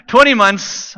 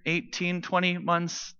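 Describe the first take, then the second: First: "Twenty months" announced loud and firm, TWENTY punched; "Twenty months" restated emphatically for the room; confident correction. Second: Quiet, tentative checking of a number; hesitant and much softer; unsure. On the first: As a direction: hit "Twenty" hard, then let "months" fall. Restates the number after wife confirms. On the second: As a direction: say it softly, feeling for the right figure. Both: Real, not acted.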